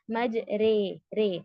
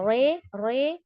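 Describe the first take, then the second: First: مج رے with a thin, light r before "ay". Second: رے with a thick, full-mouthed r; heavy ra, incorrect. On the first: Teacher showing how ra must be read, light. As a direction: keep the r in رے light, tongue low. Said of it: "light پڑھنا ہے". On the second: Teacher showing the sound not to give, heavy ra. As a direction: make the r in رے heavy and rounded. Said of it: "ایسے heaviness کا sound نہیں دینا". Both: Shown as a demonstration.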